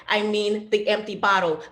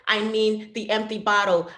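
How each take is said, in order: Both takes have the same delivery.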